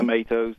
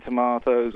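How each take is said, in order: First: American "Tomatoes", long ay in the middle; American pronunciation. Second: British "Tomatoes", broad ah in the middle; British pronunciation. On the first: Guest adjusting for US hosts, "Tomatoes" as to-MAY-toes. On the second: Guest naming a film to US hosts, "Tomatoes" as to-MAH-toes. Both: Shown as a demonstration.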